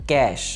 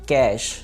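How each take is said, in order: The two takes are said the same way.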